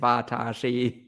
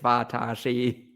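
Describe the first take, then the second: First: Each syllable is said separately and exaggerated. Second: Each syllable is said separately and exaggerated.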